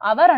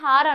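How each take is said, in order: First: The word starts directly with a vowel sound. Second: The word starts with an audible h sound. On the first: The speaker calls it right. "అవర్ అంటారు దీన్ని" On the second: The speaker calls it wrong. "అవర్ని హార్ అనొద్దు"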